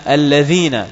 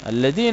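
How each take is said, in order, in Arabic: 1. تبدأ الكلمة بصوت th مجهور. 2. تبدأ الكلمة بصوت d عادي. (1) "والصحيح لأنه اسم موصول بالذال ليس بالدال" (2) "هذا دال بدون نقطة"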